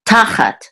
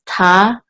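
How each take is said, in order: First: "Tachat" as one word, first syllable ta higher and stressed. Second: "tachat" split in two, with a pause after ta; syllable by syllable. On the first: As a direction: punch the "Ta" in "Tachat". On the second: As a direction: sound out "tachat" as ta, then chat. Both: Shown as a demonstration. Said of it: "the accent is on the first syllable".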